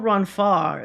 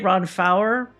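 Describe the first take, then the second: First: The name is said in a French-like way. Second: The name is said in a plain English-like way. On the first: This is the pronunciation the speaker chose for the video. "maybe it's more Ron Far, you know, because it's like almost pseudo French" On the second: This is how the speaker used to say it. "I used to say"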